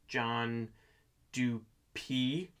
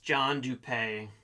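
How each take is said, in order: First: The surname ends with an 'ee' sound. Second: The surname ends with an 'ay' sound. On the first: The speaker calls it right. "Apparently, it's pronounced John Dupee" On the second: The speaker calls it wrong. "I know I've been pronouncing it wrong"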